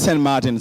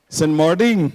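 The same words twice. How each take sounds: First: The name is said in a plain accent. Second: The name is said in an Indian accent.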